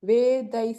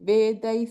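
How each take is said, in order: No difference in how they are said.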